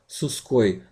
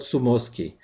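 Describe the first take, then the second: First: The m is dropped from the consonant cluster. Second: An extra vowel is added after the m. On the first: "don't try to shorten it" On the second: "or change it somehow"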